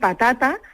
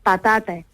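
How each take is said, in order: First: The final vowel is an open, central a. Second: The final vowel is fronted, sounding like e. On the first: "en vez de decir patata" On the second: "situamos la A un poquito más, más cerca de los labios"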